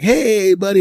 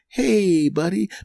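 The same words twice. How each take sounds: First: It sounds overly cheerful, with a big grin. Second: It sounds mildly friendly, with a small smile.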